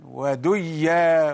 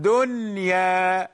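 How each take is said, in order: First: وديا with the n swallowed into a doubled y; وديا with a long double y and no clear n; wrongly merged noon. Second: دنيا with a distinct n before the y; drawn-out دنيا, n not blended into y; clear noon, unmerged. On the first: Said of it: "لو أدغمنا لتغير المعنى". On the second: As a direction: say دنيا keeping the noon fully audible, long final vowel. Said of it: "النون ظاهرة". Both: Shown as a demonstration.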